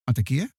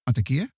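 First: It sounds like a scared, questioning call into darkness. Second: The same.

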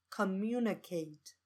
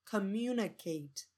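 No difference in how they are said.

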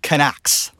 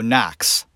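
First: The initial K is clearly sounded. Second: The initial K is silent. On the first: The speaker calls it wrong. "Not Knox" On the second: The speaker calls it right. "That's how it's pronounced"

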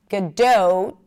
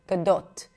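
First: The second vowel glides like the O in go. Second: The second vowel is a short, pure O. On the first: The speaker calls it wrong. "most people pronounce it as Gadot" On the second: The speaker calls it right. "it's a pure O"

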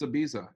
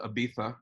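First: The middle consonant is a plain z sound. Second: The middle consonant is a lisped th sound. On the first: This is how an outsider says the name. "It's Ibiza until I've been there" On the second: This is how locals say the name. "I don't call it Ibiza"

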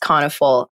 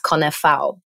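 First: The name is said with American English sounds. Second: The name is said with Polish sounds. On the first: This is how people in America say the name. "The American version is Canafal" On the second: This is the original form of the name. "So technically it's Canafal, which no one knows"

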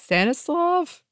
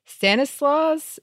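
First: The name ends with a v sound. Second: The name ends with an s sound. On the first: This is how the name is said in Polish. "I would assume it's Polish, in which case I think it's Stanislav" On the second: This is how the name is said in French. "that's the French pronunciation"

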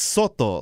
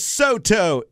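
First: The name is said with Spanish-style pronunciation. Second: The name is said with English-style pronunciation. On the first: This is the name as its owner says it. The speaker calls it right. "It's Soto" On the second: This is how most people mispronounce it. The speaker calls it wrong. "no one can pronounce them right"

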